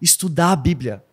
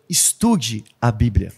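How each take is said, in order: First: Said in the usual way. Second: "estude a Bíblia" said much lower and slowly, weight on "estude"; slow emphatic appeal. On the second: Shown as a demonstration. Preacher urging the congregation, "estude a Bíblia" slow and low. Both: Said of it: "eu quero convidar todo mundo".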